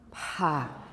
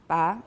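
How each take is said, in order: First: The stop is voiceless with strong aspiration. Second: The stop is voiceless with no aspiration. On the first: "strongly aspirated" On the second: "voiceless, unaspirated"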